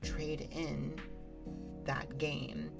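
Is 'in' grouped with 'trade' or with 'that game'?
trade. The word 'in' groups with 'trade'. The game is handed over to a store for credit. The speaker calls it wrong. "as in, like, trading it into, like, a GameStop"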